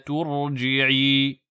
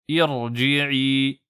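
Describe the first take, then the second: First: It runs on with no initial i vowel. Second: It starts alone with a pronounced i vowel. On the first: "la kasra n'est plus prononcée" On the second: "on récite irji'i"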